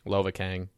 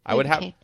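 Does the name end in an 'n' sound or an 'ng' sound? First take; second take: ng sound; n sound. First: The name ends with an 'ng' sound. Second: The name ends with a plain 'n' sound. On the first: The speaker calls it right. "I say yeah, Kang" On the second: The speaker calls it wrong. "That makes it sound like you can't pronounce your G's"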